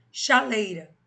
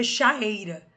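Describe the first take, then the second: First: "Chaleira" with a clear L between cha and eira; linking L pronounced. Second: "chaeira" with the vowels colliding, no linking L; awkward pronunciation without L. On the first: Teacher showing how a linking consonant eases pronunciation, L clearly sounded. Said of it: "Facilitar a pronúncia". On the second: Teacher showing the ugly form without linking consonant, vowels meeting directly. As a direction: run cha straight into eira: "chaeira". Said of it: "Fica feia essa pronúncia". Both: Shown as a demonstration.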